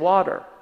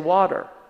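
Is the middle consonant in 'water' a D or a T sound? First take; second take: D; D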